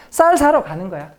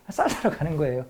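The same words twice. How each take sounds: First: Louder, higher, breezy voice of a member pretending to shop; playing a cover story. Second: Said in the usual way. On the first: Lecturer playing a resistance member's cover story, louder and higher. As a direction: act out the alibi cheerfully, louder. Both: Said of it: "제가 예를 들면 충청도 지부원이에요".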